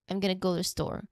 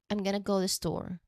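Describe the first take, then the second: Both takes have the same delivery.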